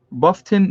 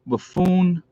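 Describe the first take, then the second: First: Buffton said as "BUFF-ton", stress on the first part; correcting to Buffton; corrected name. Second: Buffoon said as "buh-FOON", stress on the end; misreading the town as Buffoon; misread name. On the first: Streamer fixing a misread town name, saying Buffton properly. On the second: Streamer reading a viewer's town aloud misreads it as Buffoon. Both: Real, not acted. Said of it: "no, Buffton".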